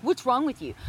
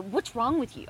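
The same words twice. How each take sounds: First: Louder, punching "What's" in "What's wrong with you?"; harsh accusing. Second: Sharp accusing question, stress on What's. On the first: Wife contrasting harsh and caring versions, harsh. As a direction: fire it off as a blame. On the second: Wife showing a spouse the harsh way to ask. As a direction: snap "What's wrong with you?" at them. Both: Shown as a demonstration. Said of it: "I could say it like that".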